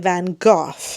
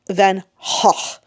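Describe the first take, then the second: First: The name is pronounced the British way. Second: The name is pronounced the Dutch way. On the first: This is how British people say it. "The British say Van Gogh" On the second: This is the original language's pronunciation. "the actual Dutch is more like Van Gogh"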